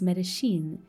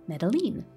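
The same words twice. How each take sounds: First: The double L is said with a sh sound. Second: The double L is said as an English L. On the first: "in Argentina and Uruguay, the double L takes a sh sound instead" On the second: "will treat the double L as we do in English"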